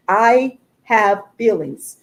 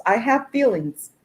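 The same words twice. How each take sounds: First: I have feelings drawn out slowly, each word pressed; slow insistent emphasis. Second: Said in the usual way. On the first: Real, not acted. To her viewers, insisting she is hurt, slow pressed emphasis.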